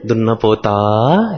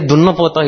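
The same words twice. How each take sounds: First: It is said in a warm, affectionate tone. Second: It is said in a harsh, scolding tone. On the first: The listener is being addressed fondly. "he said with so much love" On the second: The listener is being told off. "if he wanted to scold somebody, say, eh, Dunna Pota"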